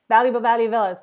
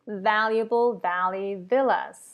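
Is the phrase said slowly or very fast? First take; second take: very fast; slowly. First: The phrase is said very fast. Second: The phrase is said slowly. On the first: "three times as fast as we can all do it" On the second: "We're gonna start slow"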